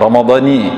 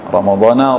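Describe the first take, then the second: First: The word ends with an 'i' vowel. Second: The word ends with an 'a' vowel. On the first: This is the full form scholars give. "nah, ramadhani" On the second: This is how people usually read it. "Tapi biasa kami Ustaz bacaannya ramadhana, tak apa-apa"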